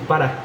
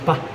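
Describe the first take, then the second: First: The word is said in full, with two syllables. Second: The word is shortened to one syllable. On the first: "no decimos para" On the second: "decimos pa"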